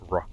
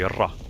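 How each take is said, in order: First: The R is said the English way. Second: The R is said the Arabic way. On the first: "not ra" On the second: "in Arabic we say ra"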